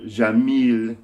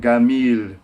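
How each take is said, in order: First: The first consonant is a j sound. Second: The first consonant is a hard g sound. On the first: "the word jamil means beautiful" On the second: "in Egypt, you have to pronounce it gamil, because the j is always g, hard g"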